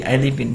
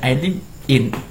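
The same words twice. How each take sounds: First: Live and in run together as one word. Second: Live and in are said as separate words. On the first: The speaker calls it right. "tapi I live in, karena di sini adalah huruf mati" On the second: The speaker calls it wrong.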